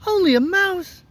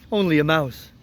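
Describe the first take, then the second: First: High-pitched, affronted little mouse; indignant squeak. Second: Said in the usual way. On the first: Acted. Little mouse offended by the woodman, indignant squeak.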